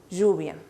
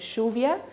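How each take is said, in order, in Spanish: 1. La ll es un zumbido suave, tipo zh. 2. La ll es una sh fuerte, tipo argentino. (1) "Un poquito más yo, ya, lluvia" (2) "Los argentinos dicen lluvia"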